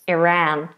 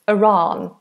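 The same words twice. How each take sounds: First: American accent, with a narrower, less rounded vowel. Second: British accent, with a wider, more rounded vowel. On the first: "Or Americans more Iran" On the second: "British Iran, a wider sound... a bit more rounded in the mouth"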